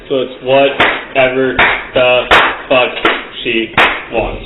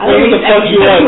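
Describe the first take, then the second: First: Slow, each word set apart by pauses; clap between every word. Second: Every word punched apart like claps; clap between every word. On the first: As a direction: pause after whatever, fuck, she. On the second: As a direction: hit each word separately, clapping. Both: Shown as a demonstration. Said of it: "a clap in between every word".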